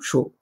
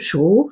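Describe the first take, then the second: First: The pitch dips low, then rises. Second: The pitch rises from mid to high.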